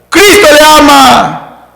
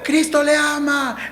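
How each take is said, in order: First: It is said loudly, almost shouted. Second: It is said at a normal, soft volume.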